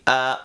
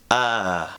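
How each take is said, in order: First: The sound is cut off abruptly at the end. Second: The sound gently fades away at the end. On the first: "Are we stopping the air" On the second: "allowing the sound to gently fade away"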